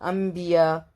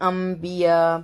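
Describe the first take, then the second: First: The nasal before the b is an m sound. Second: The nasal before the b is an m sound.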